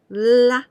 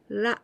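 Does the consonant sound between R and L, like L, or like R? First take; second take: L; between. First: The consonant is a clear English-style L. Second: The consonant is a light tap between R and L. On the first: "and not like also L" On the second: "It is something between R and L"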